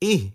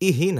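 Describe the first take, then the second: First: The syllable stops short after the h sound. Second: An extra i vowel follows the h sound. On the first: The speaker calls it right. "হামজা হাজের ইহ একবারই চেপে ধরবে" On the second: The speaker calls it wrong. "ইহি না"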